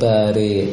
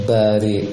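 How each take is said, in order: Both takes have the same delivery.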